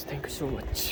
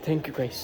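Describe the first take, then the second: First: Thanks dropped much softer, almost under the breath; soft thank you. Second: Said in the usual way. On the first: Real, not acted. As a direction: let the second thanks fall away softly. Thanking viewers twice over. (ધીમા અવાજે આભાર)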